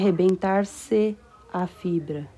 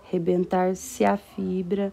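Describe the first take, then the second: First: The vowels between the words are kept separate. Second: The vowels between the words are joined together. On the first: The speaker calls it wrong. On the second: The speaker calls it right.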